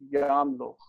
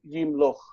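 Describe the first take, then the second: First: The first vowel is an a sound. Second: The first vowel is an i sound. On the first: This is the older original form. "Historically, the vowel was ya" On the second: This is the later form used today. "Like we say yimloch"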